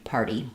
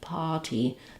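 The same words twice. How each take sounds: First: An R sound, with a soft flapped T. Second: No R sound, with a crisp aspirated T. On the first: "So American English, party" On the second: "British English is more party, party. They don't really use that R"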